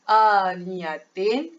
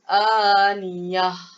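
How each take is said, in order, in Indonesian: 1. Kata ini berakhir dengan suku kata 'tin' yang penuh. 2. Kata ini hanya berakhir dengan h yang diembuskan. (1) "Jadi bacaan dia aniyatin" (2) "Keluar angin saja"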